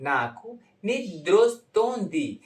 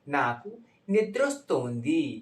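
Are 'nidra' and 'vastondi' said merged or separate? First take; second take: merged; merged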